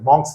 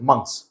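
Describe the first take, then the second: First: The vowel sounds like the o in cot. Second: The vowel sounds like the u in cut. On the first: The speaker calls it wrong. "मॉन्क्स नहीं" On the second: The speaker calls it right. "एम यू की तरह pronounce कीजिए"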